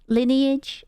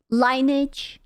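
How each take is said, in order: First: Lineage? said as LIN-ee-ij, short i and three syllables; second try at the name. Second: Lineage? said as LINE-ij, long i as in line; first try at the name. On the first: Streamer correcting herself on the game name: Lineage? as LIN-ee-ij. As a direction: read Lineage? as lin-ee-ij, like the word lineage. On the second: Streamer trying one way to say the game name: Lineage? as LINE-ij. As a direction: read Lineage? with the first syllable rhyming with fine. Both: Shown as a demonstration. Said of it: "I don't know how to say it".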